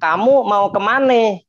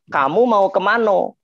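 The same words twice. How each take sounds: First: It is spoken in a Betawi accent. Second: It is spoken in a Minang accent. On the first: "Orang-orang Betawi gitu" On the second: "Orang Minang"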